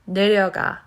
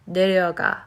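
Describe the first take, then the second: Both takes have the same delivery.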